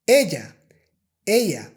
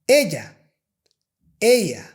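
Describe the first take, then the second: Both takes have the same delivery.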